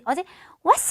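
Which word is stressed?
왔어. The emphasis falls on the second word. The point is the act of coming. The speaker calls it wrong. "어제 왔어 하면 안 되겠죠"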